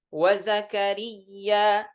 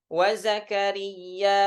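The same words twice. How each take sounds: No difference in how they are said.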